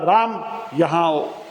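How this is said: It is said loudly, in a scolding way.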